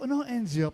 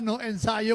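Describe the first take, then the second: First: The second word is said as two syllables, enzio. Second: The second word is said as three syllables, ensayo. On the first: It sounds like an acronym. The speaker calls it wrong. "Sabi ko" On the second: It means no rehearsal. The speaker calls it right. "yun pala yung tamang pronunciation"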